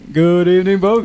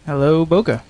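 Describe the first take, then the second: First: The greeting is said loudly, with more energy. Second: The greeting is said quietly, with little energy.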